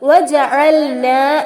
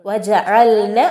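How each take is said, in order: First: The final vowel is held long. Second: The final vowel is cut short. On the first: The word stands on its own. "നൂനിന് ഫത്ഹ അലിഫ് മദ്ദാണ്" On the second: The word is joined to the next word. "അലിഫ് മദ് നഷ്ടപ്പെടുന്നു, വജഅൽന എന്നായി മാറുന്നു"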